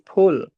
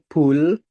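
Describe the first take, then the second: First: The first sound has a strong puff of air. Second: The first sound has no puff of air. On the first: The speaker calls it right. "tapi pul" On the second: The speaker calls it wrong. "Jangan pul"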